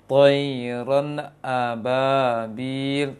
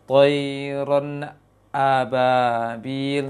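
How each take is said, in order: First: The nun sound is cut off too quickly. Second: The nun stops fully before the hamzah starts. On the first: "Kalau yang terlalu cepat seperti ini" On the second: "Yang terlalu menunggu maksimal lisannya turun baru baca hamzahnya"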